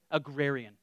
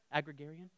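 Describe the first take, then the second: First: Agrarian. said a-grair-ian, settled, falling; corrected pronunciation. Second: Agrarian? said as ag-ra-gar-ian with a doubtful rise; unsure pronunciation. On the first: Preacher correcting his word Agrarian. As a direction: fix Agrarian. to the proper four syllables. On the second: Preacher checking his pronunciation of Agrarian. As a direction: test Agrarian? quietly, unsure of the syllables. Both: Shown as a demonstration. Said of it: "if I said that word right".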